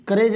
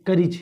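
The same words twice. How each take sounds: First: करेज with long "ay", like "ka-rayj"; wrong vowel demo. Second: करीज with an i sound, "ka-rij"; correct vowel demo. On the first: Teacher contrasting wrong with right, mispronounced. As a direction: show करेज with an e in second syllable. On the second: Teacher giving the correct reading, carefully pronounced. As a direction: model करीज with i in second syllable, falling. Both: Shown as a demonstration. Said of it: "करेज नहीं".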